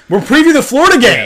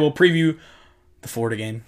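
First: It is said with passion and energy. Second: It is said flatly, without much energy.

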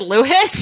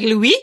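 First: The name is pronounced the English way. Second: The name is pronounced the French way. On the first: The speaker calls it right. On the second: The speaker calls it wrong.

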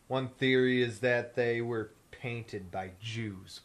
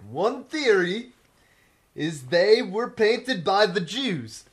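First: It is read in his normal voice. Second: It is read in a Borat impression.

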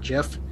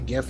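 First: The word begins with a j sound. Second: The word begins with a hard g sound. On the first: The speaker calls it wrong. "not JIF" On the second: The speaker calls it right. "that is how you pronounce it"

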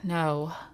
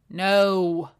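First: It sounds passive aggressive, with a sigh. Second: It sounds harsh and aggressive.

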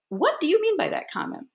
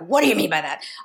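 First: It sounds honest and genuinely curious. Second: It sounds angry and aggressive.

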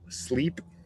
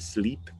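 First: The word starts directly with the S sound. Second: An extra E vowel comes before the S. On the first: The speaker calls it right. "there is not an E sound in front of these words" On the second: The speaker calls it wrong. "a lot of times Spanish speakers are saying sleep"

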